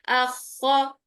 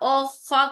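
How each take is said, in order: First: The first vowel is light and open, like 'a'. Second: The first vowel is heavy and rounded, like 'o'. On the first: The speaker calls it right. "आ की साउंड हमजा के लिए इसको बारीकी रखना है" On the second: The speaker calls it wrong. "ओ खा करेंगी तो हमजा मोटा हो जाएगा, जो कि गलत है"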